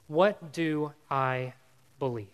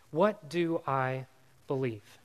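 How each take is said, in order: Both takes have the same delivery.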